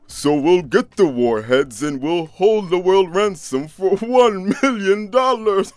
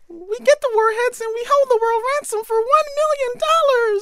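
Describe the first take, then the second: First: It is said in a deep Santa Claus voice. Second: It is said in a high Minnie Mouse voice.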